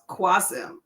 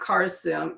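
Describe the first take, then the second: First: The name begins with a 'kw' sound. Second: The name begins with a plain 'k' sound. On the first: The speaker calls it right. "It's pronounced Quasim" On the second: The speaker calls it wrong. "not Carsim"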